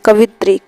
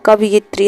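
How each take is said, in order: First: कवित्री said as ka-vi-tri with no य; wrong spelling read out. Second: कवियत्री said as ka-vi-yat-ri with the य sounded; correct spelling read out. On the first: Teacher reads the misspelt कवित्री to students, ka-vi-tri. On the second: Teacher gives the correct कवियत्री to students, ka-vi-yat-ri. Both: Shown as a demonstration. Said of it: "कवियत्री इस तरीके से लिखा जाएगा".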